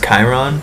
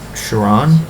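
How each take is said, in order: First: The name begins with a k sound. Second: The name begins with a ch sound. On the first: The speaker calls it right. "But it's Chiron" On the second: The speaker calls it wrong. "I always used to pronounce it Chiron. ... The C H just kind of Chiron to me"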